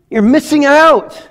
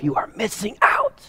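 First: High and louder, slowed; preacher's rising declaration; emphatic call. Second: Breathy whisper, higher pitch; hushed dramatic aside. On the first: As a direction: ring it out to the room. Preacher bursts out after whisper. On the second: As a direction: lean in and whisper it. Preacher drops to whisper. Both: Real, not acted.

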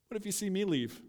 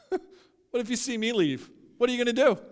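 First: Understated challenge. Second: High, forceful dare; bold challenge. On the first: Jesus to disciples about to leave, understated challenge. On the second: Jesus pre-empting the disciples' exit, bold challenge. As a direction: throw it at them, voice raised. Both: Acted.

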